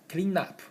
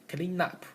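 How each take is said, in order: The two takes are said the same way.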